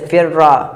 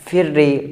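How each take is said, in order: First: The doubled consonant ends with an a vowel. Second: The doubled consonant ends with an i vowel. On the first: "दूसरे को फ़तह" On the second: "कसरा"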